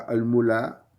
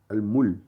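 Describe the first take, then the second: First: The L is followed by an a vowel. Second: The L is followed by no vowel. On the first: The speaker calls it wrong. "on ne dit pas al-mula" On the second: The speaker calls it right. "Ce n'est ni un A, ni un OU, ni un I"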